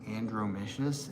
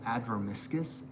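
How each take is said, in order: First: The word begins with an added n sound. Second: The word begins without an n sound. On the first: The speaker calls it wrong. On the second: The speaker calls it right.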